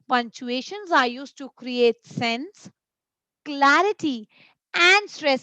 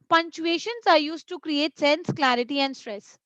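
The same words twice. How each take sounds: First: Short pauses separate the three listed words. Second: The three listed words run together without pauses. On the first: The speaker calls it right. "Comma means I have to give a pause in between" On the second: The speaker calls it wrong. "what if I read it like this? No"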